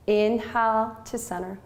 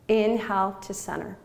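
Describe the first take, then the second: No difference in how they are said.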